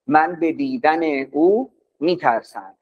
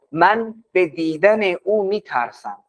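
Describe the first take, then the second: First: او stressed, calm pace; now lean on او instead of من. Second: من stressed, said slowly. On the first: Teacher repeats the sentence for the class, stressing او. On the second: Teacher demoing the sentence to the class, stress on من. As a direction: lean on من, slow and clear. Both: Shown as a demonstration.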